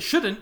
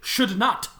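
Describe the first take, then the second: First: It is said as one contracted word. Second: It is said as two separate full words. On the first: The speaker calls it wrong. "You shouldn't say it shouldn't" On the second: The speaker calls it right. "You say should not"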